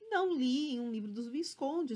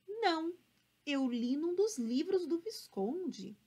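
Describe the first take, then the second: First: It is read in a flat, unexpressive voice. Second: It is read with lively, expressive intonation. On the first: "Vamos deixar sem expressividade agora" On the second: "eu estava lendo com expressividade"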